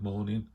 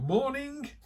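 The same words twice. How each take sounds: First: It is said in a flat, downbeat tone. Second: It is said in a bright, enthusiastic tone.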